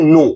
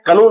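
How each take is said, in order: First: The word begins directly with an n sound. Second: The k sound is pronounced at the start. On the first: The speaker calls it right. "इसे हम लोग पढ़ते हैं नो" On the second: The speaker calls it wrong. "इसे हम लोग पढ़ते हैं कनो नहीं"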